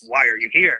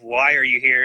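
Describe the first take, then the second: First: It sounds angry and hostile. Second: It sounds surprised and shocked.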